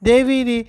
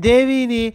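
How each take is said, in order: Both takes have the same delivery.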